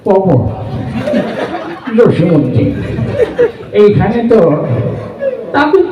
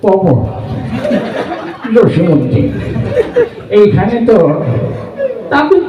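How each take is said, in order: First: It is recited in an old man's voice. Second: It is recited in an old man's voice.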